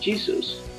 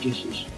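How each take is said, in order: First: The name is pronounced the English way. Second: The name is pronounced the German way. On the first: "pronunciación en inglés" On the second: "pero la pronunciación aproximada es"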